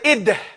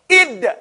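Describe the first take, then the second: First: The final d lets an extra sound escape. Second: The final d is held back with no extra sound. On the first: The speaker calls it wrong. "You want to make sure you don't say id. You don't want to let no other sound out" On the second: The speaker calls it right. "You hear it? You're holding it. Restrain it"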